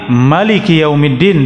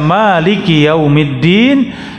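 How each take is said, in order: First: The first vowel of Maliki is kept short. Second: The first vowel of Maliki is drawn out long. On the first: "dengan manya pendek" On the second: "bisa dibaca panjang"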